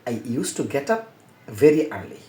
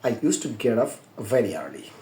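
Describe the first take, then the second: First: The t in 'get up' is a hard t. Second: The t in 'get up' is soft and flapped. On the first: "এটা একটা English বলা যাবে।" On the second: "international উচ্চারণটা"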